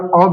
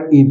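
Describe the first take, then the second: First: The vowel is a short, weak 'uh' sound. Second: The vowel is a full 'ay' sound as in day. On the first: "ए का उच्चारण अ भी किया जाता है" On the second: "ए का उच्चारण ए भी किया जाता है"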